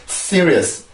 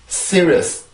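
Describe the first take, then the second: First: The word is said with three syllables. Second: The word is said with three syllables.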